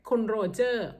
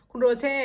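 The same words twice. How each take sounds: First: Said in the usual way. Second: โรเช่ ending in an open "-chê", pitched up; German pronunciation. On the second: Shown as a demonstration. Explaining husband's name to viewers, German-style โรเช่ with "-chê" ending. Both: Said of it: "เยอรมันเขาจะออกเสียงโรเช่".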